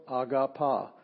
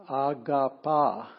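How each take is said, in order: First: Agapa with the weight on the final pa; agapa, stressed at the end; stress on the last syllable. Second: Agapa drawn out slowly, syllable by syllable; teacher slowly voicing Agapa; slow Greek demo. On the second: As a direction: sound out Agapa for the class. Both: Shown as a demonstration. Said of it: "emphasis on the last syllable".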